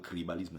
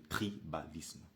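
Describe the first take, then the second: First: The word is pronounced carelessly, with distorted sounds. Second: The word is pronounced carefully, with clear sounds. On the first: The speaker calls it wrong. "Ce n'est pas le tribalisme" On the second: The speaker calls it right. "c'est le tribalisme"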